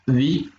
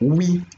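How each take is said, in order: First: The first vowel is said with spread lips. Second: The first vowel is said with rounded lips. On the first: "sans arrondir les lèvres" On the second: "en arrondissant le, les lèvres"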